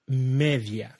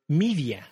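First: It is pronounced with Spanish vowels. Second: It is pronounced with English vowels. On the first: "But you say it differently" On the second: "your English word"

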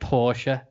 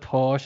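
First: It is pronounced in an American way. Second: It is pronounced in a British way. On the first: The speaker calls it wrong. "you said Porsche instead of" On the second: The speaker calls it right. "instead of Porsche"

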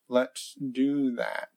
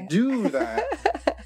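First: It is said in a flat, monotone voice. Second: It is said in a lively, energetic voice.

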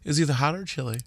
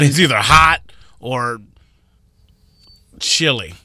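First: It is said in a calm tone. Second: It is said in an aggressive tone.

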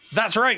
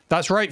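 First: It is said with much more enthusiasm. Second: It is said with little enthusiasm.

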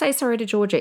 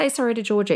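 First: It is said in a sharp, harsh tone. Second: It is said in a sharp, harsh tone.

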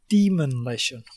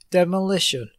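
First: An extra n sound follows the first syllable. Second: The word is said with no extra n sound. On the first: "He says demonlition" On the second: "he doesn't actually say demolition"

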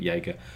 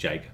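First: The name begins with a Y sound. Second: The name begins with a J sound. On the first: This is the preferred way to say the name. The speaker calls it right. "But Yeager" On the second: This is how some other people say the name. The speaker calls it wrong. "Or some people pronounce it Jaeger"

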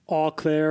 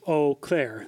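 First: The first syllable is not said like 'oh'. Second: The first syllable is said like 'oh'. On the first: The speaker calls it wrong. "I always thought it was like Eau Claire or something like that" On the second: The speaker calls it right. "it's actually just Eau Claire"

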